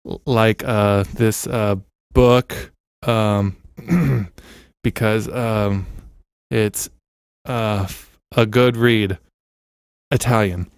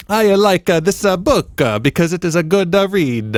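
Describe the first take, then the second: First: Said in the usual way. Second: Much higher, louder mock Italian accent. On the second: Shown as a demonstration. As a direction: exaggerate an Italian lilt through the ums. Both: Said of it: "It's like a guy giving a speech".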